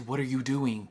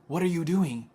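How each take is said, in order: First: Said in the usual way. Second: Raised exasperated repeat. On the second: Real, not acted. She scolds the officers who made her late, exasperated. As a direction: demand it again, fed up.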